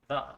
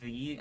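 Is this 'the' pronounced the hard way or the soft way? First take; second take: soft; hard. First: The word is pronounced in its soft form. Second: The word is pronounced in its hard form. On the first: "soft the" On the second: "The hard the"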